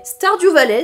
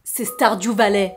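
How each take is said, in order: First: High, loud Stardew Valley; excited proclamation. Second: Slow, held-back naming of Stardew Valley; slow reveal. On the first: Vlogger launching her presentation of the game, excited proclamation. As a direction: proclaim the title, pitched up and punched. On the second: Vlogger revealing which game hooked her, slow reveal. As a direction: reveal the title unhurriedly. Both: Real, not acted.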